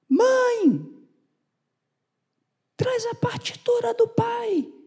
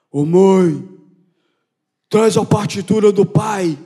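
First: It is said in a high-pitched voice. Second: It is said in a deep, hoarse voice.

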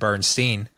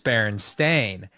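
First: The last syllable sounds like 'steen'. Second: The last syllable sounds like 'stain'. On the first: This is how the name was remembered in the past. "in the 90s, everybody said Bernstein" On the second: This is how the name is spelled now. "But in 2024, it's Bernstein. ... Every book says A-I-N instead of E-I-N"

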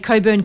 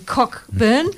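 First: The name is said with no k sound. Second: The name is said with a clear k sound. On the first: The speaker calls it right. "couldn't say Coburn correctly" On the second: The speaker calls it wrong. "He was saying Cockburn"

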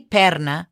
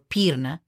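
First: The first vowel is a plain 'e' sound. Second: The first vowel is a plain 'i' sound. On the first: "You don't say perna or pirna" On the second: "You don't say perna or pirna"

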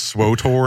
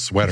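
First: It is said with an 'o' vowel: swotor. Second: It is said like the word sweater. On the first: The speaker calls it wrong. "I've heard people pronounce it as Swotor" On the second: The speaker calls it right. "not nearly as cool as Sweater"

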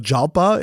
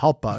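First: The name begins with a J sound. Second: The name begins with an H sound. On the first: The speaker calls it wrong. "it's not a Jalpa" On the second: The speaker calls it right. "the J is H"

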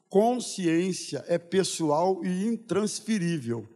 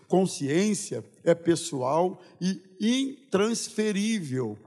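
First: The sentence is spoken at a normal pace. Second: The sentence is spoken very slowly.

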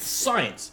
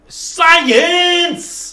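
First: It is said at normal, quiet volume. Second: It is said loudly.

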